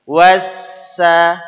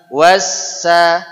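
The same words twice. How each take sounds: No difference in how they are said.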